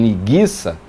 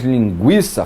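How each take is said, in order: First: "linguiça" said lin-GHEE-sa, hard g; U silent. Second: "linguiça" said lin-GWEE-sa; U pronounced. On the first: Teacher imagining speech without the trema, "linguiça" with silent U. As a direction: drop the w sound from "linguiça". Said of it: "fale em linguiça". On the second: Teacher showing the form people might drop, "linguiça" with a sounded U. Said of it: "não fale mais linguiça". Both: Shown as a demonstration.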